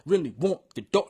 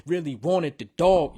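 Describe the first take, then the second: First: Said in the usual way. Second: "wanted" with two full syllables; smooth out the line with "wanted"; extra syllable in wanted. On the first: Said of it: "No, not want the dog". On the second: Shown as a demonstration. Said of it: "put a syllable in that".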